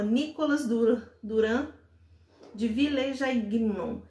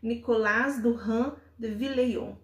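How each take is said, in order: First: The name is read with Portuguese-style sounds. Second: The name is said with French-style sounds. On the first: The speaker calls it wrong. "francês não pronuncia assim" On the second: The speaker calls it right. "Deixa eu ver se eu consigo pronunciar"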